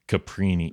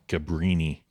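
First: The middle consonant is a p sound. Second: The middle consonant is a b sound. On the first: The speaker calls it wrong. "You're saying Caprini. It's not like Capri" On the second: The speaker calls it right. "Brini. B-R"

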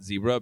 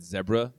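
First: It is said the American way, 'zee-bra'. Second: It is said the Australian way, 'zeh-bra'.

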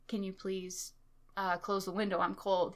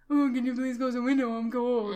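First: It is said in a normal voice. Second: It is said in a low, mocking voice.

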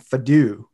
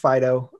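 First: The name ends with an 'oo' sound. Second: The name ends with an 'oh' sound. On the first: The speaker calls it wrong. "So I was always calling him Fadoo" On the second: The speaker calls it right. "So it's actually pronounced Fido"

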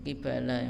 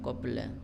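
First: The word is said with three syllables. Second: The word is said with two syllables. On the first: The speaker calls it right. "yang betul" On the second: The speaker calls it wrong. "bukan qibla"

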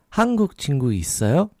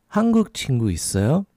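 No difference in how they are said.

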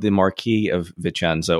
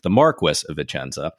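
First: The title is said with a modern pronunciation. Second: The title is said with an old British pronunciation.

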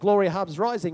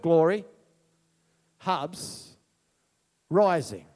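First: The words run together as one phrase. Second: Each word is set apart by pauses.

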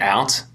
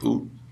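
First: The vowel is a plain 'ow' sound. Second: The vowel sounds close to 'oo', like boot. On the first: This is the usual non-Canadian way. "Instead of saying out" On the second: This is the stereotypical Canadian way. "you'd be like, oot"

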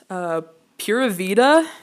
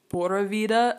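First: It is said with an English accent. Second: It is said with a Spanish accent. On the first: "the English way of saying it" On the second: "if you say it with an accent"

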